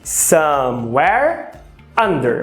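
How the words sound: There is a pause between the two words.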